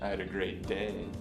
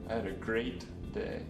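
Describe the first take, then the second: First: The stress is on the word "day". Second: The stress is on the word "great". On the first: The day was fine but the week was worse. "The last time, I accented day" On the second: The day really was great. "The third time, I stressed the word great"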